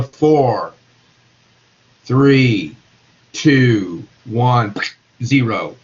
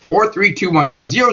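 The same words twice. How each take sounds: First: Low, spaced-out numbers; each number set apart and pitched lower; slowing countdown. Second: Said in the usual way. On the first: Shown as a demonstration. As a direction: count down slowly, a pause between numbers. As soon as those molecules are moving slower.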